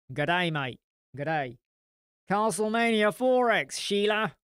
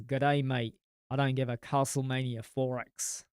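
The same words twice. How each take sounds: First: Second, bolder Australian accent, louder on the end; hammed-up Australian, punching Castlemania four X and Sheila. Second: First try at an Australian accent, close to his own voice; a half-hearted Australian accent he rejects right after; weak Australian accent. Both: Shown as a demonstration. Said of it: "No, that sounded more, no".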